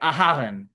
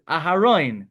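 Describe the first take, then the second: First: The stress falls before the last syllable. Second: The stress falls on the last syllable. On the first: It is the Yiddish way of saying the name. The speaker calls it wrong. "That's a Yiddish name" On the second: It is the way of saying the name in the Hebrew text. The speaker calls it right. "when you read the Torah, it's Aharon"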